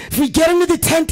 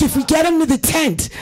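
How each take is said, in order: First: Rallying plea, pushed harder. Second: Rallying plea. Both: Retold or imitated. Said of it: "rallying the troops".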